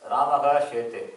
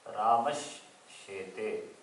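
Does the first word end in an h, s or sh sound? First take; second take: h; sh. First: The first word ends in a breathy h sound. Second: The first word ends in a sh sound. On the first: "Visarga is replaced by Visarga as it is" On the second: "the Sakara is followed by Shakara"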